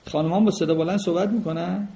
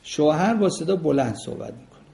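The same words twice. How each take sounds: First: "با" stressed, tune rising into a question. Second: "با" stressed with a falling statement tune. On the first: ("با" تأکیدی با لحن پرسشی بالارونده) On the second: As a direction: say "شوهر با صدا بلند" as a flat, falling statement. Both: Shown as a demonstration. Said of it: "statement then question".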